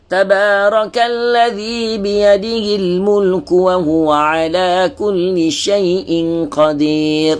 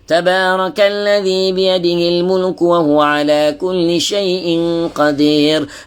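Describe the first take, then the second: First: It is recited at a moderate pace. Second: It is recited quickly with short vowels. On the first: This is the moderate tadwir style. "dia bukan taqiq, dia laju sikit" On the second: This is the quick hadar style for revision. "hadar ni dia lebih laju"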